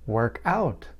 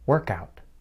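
First: The word out is stressed. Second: The word work is stressed. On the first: It is a verb: to exercise or solve. "phrasal verbs involve a verb and another short word or words. For example" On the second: It is a noun: an exercise session. "the phrasal verb work out has a noun form"

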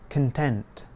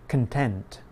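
First: The stress is on the second syllable. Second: The same.

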